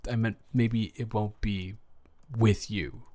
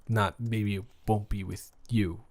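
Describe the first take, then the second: First: "with" stressed, falling on "with you". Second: "you" stressed, falling at the end; weight on "you" in "with you". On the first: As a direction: lean on "with" in "with you". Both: Acted.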